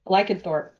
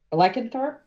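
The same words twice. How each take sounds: First: Said in the usual way. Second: "Lycanthrope" rising higher into a question; unsure question. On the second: Real, not acted. Makeup artist checking a new character's name, unsure question. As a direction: ask "Lycanthrope" with the pitch lifting at the end.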